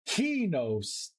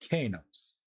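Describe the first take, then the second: First: The first vowel sounds like 'ee'. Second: The first vowel sounds like 'ah'. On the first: The speaker calls it right. "Kinos, I guess it does make sense" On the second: The speaker calls it wrong. "I'm always going to say it wrong"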